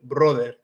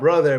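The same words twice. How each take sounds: First: It is said with a Latino Spanish accent. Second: It is said with a plain English accent.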